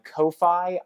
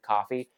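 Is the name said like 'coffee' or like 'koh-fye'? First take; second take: koh-fye; coffee. First: The name is said as 'koh-fye', unlike coffee. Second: The name is said exactly like the word 'coffee'. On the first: "I personally refuse to pronounce it coffee" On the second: "I personally refuse to pronounce it coffee, no matter how much they want you to"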